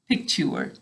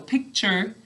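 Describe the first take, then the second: First: The second syllable sounds like 'tour'. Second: The second syllable sounds like 'cher'. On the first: This is said to help with spelling. "We say picture to spell it" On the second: This is how it is said in normal speech. "we say picture when we're talking"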